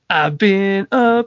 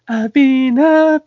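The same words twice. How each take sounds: First: The voice is rough and forceful. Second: The voice is soft and sweetly sentimental. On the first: The speaker calls it right. "He's like more rough rousing the vocals" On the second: The speaker calls it wrong. "he's more like all sappy singing it"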